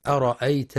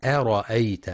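First: أرأيت with a thick, emphatic hamza; wrong heavy hamza demo. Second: أرأيت with a thin, light hamza. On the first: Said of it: "بتفخيم الهمزة". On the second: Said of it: "والصواب ترقيقها". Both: Shown as a demonstration.

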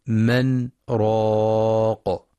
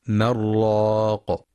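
First: من, a tiny breathless stop, then راق; saktah pause. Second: من راق run together as marraq; wrong merged reading. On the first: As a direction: break briefly after من without breathing. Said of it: "بسكتة لطيفة بدون تنفس". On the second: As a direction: merge the nun into the ra. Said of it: "فلا يقرأ بالإدغام". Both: Shown as a demonstration.

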